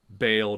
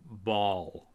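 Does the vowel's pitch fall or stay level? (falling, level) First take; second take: level; falling. First: The vowel is said without a falling pitch. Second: The vowel is said with a falling pitch. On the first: The speaker calls it wrong. "not Baal" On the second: The speaker calls it right. "a falling A"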